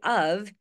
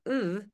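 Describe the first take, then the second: First: The word ends with a V sound. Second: The word is rushed, with no final consonant. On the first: "pronounced with a V of" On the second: "it's usually rushed. So it's usually more like ooh"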